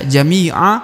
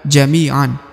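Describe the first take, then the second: First: The word ends on an open vowel. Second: The word ends with an n sound. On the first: The reading stops at this word. The speaker calls it right. "Maka dibaca jami'a" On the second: The reading does not stop at this word. The speaker calls it wrong. "bukan jami'an"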